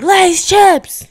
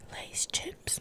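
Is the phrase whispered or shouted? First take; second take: shouted; whispered. First: The phrase is said in a loud shout. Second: The phrase is said in a whisper. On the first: The speaker calls it right. "I'd rather just be like" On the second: The speaker calls it wrong. "if I whisper"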